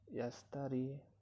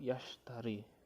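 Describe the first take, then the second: First: The middle consonant is a plain s sound. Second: The middle consonant is an sh sound. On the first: The speaker calls it wrong. "kesalahan pengucapan atau fonemnya" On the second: The speaker calls it right. "Seharusnya yastari ini menggunakan shin"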